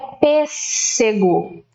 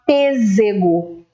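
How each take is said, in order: First: The middle consonant is a hissing s sound. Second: The middle consonant is a buzzing z sound. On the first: The speaker calls it right. "eu preciso desse som do S ali no meio" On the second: The speaker calls it wrong. "Se eu tivesse com um S só"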